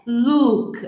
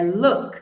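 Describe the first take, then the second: First: "look" with a long tight oo, slowly; "look" errado com U longo; wrong "look". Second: "look" with a short open oo, with a little laugh; "look" certo com U curto; correct "look". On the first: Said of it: "não é look". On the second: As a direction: give the right short oo in "look". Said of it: "é look". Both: Shown as a demonstration.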